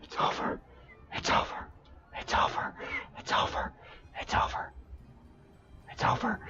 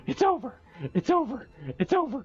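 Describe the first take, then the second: First: Whispered over and over in shock; stunned whisper. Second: Very high-pitched, disbelieving squeal; overwhelmed high squeal. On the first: Streamer with child right behind, stunned whisper. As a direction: repeat it in an urgent, voiceless whisper. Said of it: "my child is right behind me". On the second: Streamer ending a two-thousand-encounter hunt, high overwhelmed squeal. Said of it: "I gotta watch my voice". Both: Real, not acted.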